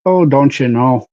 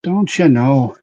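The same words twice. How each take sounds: First: Canadian accent with a long round oh. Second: Canadian-Irish accent, stress on you, falling end; a Canadian-Irish lilt on you. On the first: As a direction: say it like a friendly Canadian. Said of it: "That's Canadian". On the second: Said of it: "mix of Canadian and, and Irish". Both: Shown as a demonstration.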